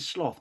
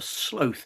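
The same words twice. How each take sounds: First: The vowel is short, as in cloth. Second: The vowel is long, as in slow. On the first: It names the deadly sin. "I think the sin might have been sloth" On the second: It names the animal. "I'm sure that the animal was a sloth. And it was easy because they are slow"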